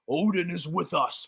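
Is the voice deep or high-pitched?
deep. The voice is low and deep. This is how the line was expected to sound. "I was expecting something like"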